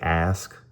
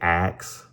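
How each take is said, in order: First: The word is said like ask. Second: The word is said like axe. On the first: This is the way the speaker says he uses. The speaker calls it right. "I say ask" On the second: This is the way the speaker says he avoids. The speaker calls it wrong. "I don't say ask"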